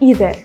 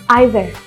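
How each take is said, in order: First: The word begins with an 'ee' sound. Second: The word begins with an 'eye' sound. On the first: "memiliki pengucapan lain" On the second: "inisial I bisa diucapkan dengan cara I"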